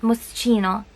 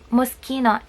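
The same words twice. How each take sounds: First: The 'ch' is not sounded like 'k'. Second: The 'ch' is sounded like 'k'. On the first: The speaker calls it wrong. "and not Moschino" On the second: The speaker calls it right. "why do we pronounce it Moschino"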